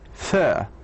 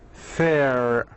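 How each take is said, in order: First: The final r sound is not pronounced. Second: The final r sound is clearly pronounced. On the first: "In the British we say fur, fur, without pronouncing the R" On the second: "In American accent we say fair, fair, it's more gliding"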